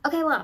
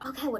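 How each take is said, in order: First: It sounds whiny and high pitched. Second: It sounds sharp and snapping. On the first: She is meekly putting up with the insult. "it was kind of like whiny and high pitched" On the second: She is standing up for herself. "she started snapping back"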